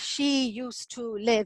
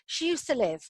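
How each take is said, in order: First: The word 'to' is said full and clear. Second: The word 'to' is shrunk and weak. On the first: The speaker calls it wrong. "we wouldn't say" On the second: The speaker calls it right. "model how this would naturally sound"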